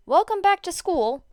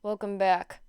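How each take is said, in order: First: Bright, loud, upbeat welcome; cheery announcement. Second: Lazy, drawn-out yawn through the words. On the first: A narrator's reading. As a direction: announce it with a big grin. Cheerful chapter summary opening. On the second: Acted. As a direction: say it mid-yawn, half asleep. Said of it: "Aizawa yawned".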